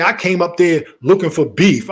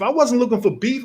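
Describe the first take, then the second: First: Louder, sarcastic quote of her claim; parroting the accusation with scorn; mocking her words. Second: Said in the usual way. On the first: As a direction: throw her accusation back at her.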